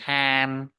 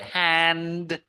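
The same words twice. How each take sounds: First: The final d sound is dropped. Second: The final d sound is pronounced.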